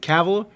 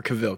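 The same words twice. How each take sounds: First: "Cavill" as KAV-ul; stress on first syllable. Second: "Cavill" as kuh-VILL; stress on second syllable. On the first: Co-host asking how to say the actor's name, "Cavill" as KAV-ul. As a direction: say "Cavill" with the stress up front, rhyming with travel. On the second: Co-host asking how to say the actor's name, "Cavill" as kuh-VILL. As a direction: say "Cavill" with a weak first vowel and stressed ending. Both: Shown as a demonstration. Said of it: "I've heard this, like, multiple ways".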